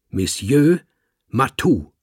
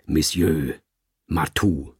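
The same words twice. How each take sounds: First: Höher, lauter, französisch betont Monsieur Matou; French. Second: Said in the usual way. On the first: Acted. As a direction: stolzer Kater besteht auf Monsieur Matou. Kater betont seinen Namen. (Kater korrigiert den Dichter, französisch und stolz)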